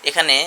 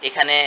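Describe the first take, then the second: No difference in how they are said.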